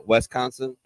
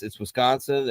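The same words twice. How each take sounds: First: Wisconsin with the first vowel near Wes, a bit slurred; drunken Wisconsin. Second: Said in the usual way. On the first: Shown as a demonstration. Host shows his drunk-talk Wisconsin, Wes-consin vowel. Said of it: "it will come out a little bit like". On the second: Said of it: "if I'm trying to not be a complete ass".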